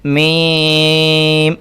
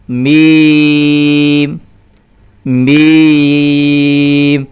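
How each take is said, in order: First: میم held long and pushed into the nose; deliberately wrong nasal میم; nasal meem. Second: میم held long and louder, voiced from the mouth; clear meem from the mouth. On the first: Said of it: "غلط پڑھنے کی کوشش کرتا ہوں". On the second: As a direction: sustain میم cleanly, not nasal. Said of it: "دو مرتبہ میں نے منہ سے پڑھا". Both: Shown as a demonstration.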